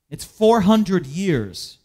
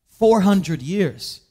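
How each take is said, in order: First: "four hundred years" drawn out slowly, "four" stressed; slow emphasis. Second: "Four hundred years" said very slowly with weight on "Four"; slow emphasis. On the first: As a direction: lean hard on "four" and stretch "four hundred years". Preacher dwelling on the long wait. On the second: Preacher repeating the length of silence. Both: Acted.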